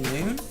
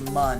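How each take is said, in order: First: The vowel is a long 'oo' sound. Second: The vowel is a short 'uh' sound. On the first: The speaker calls it right. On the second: The speaker calls it wrong.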